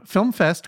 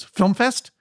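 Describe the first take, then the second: First: Store greeting, stated with falling tune; answering the phone. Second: Higher, rising questioning tune; young woman caller. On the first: Video store clerk picking up the phone, stating the shop name. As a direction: say FILM FEST as a statement. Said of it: "and I said, uh". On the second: Young woman on the line checking the shop, questioning. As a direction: ask FILM FEST as a checking question. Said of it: "there was a young woman". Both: Retold or imitated.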